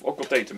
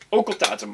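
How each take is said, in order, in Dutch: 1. Het woord wordt op de Engelse manier uitgesproken. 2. Het woord wordt op de Nederlandse manier uitgesproken.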